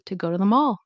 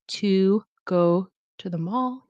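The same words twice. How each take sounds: First: The small words are weak and reduced. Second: Every small word is pronounced fully and clearly. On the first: The speaker calls it right. "you'll say" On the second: The speaker calls it wrong. "instead of saying like"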